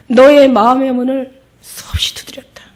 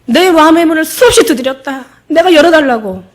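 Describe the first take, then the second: First: Breathy whisper of Jesus; whispering, as Jesus to the woman. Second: Higher, louder preaching cry; loud, higher fervent preacher's cry; impassioned cry. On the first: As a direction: hush it like a secret plea. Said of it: "예수님이 뭐라고 얘기하시냐면". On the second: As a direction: proclaim it with full force. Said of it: "preacher's impassioned repeat". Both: Acted.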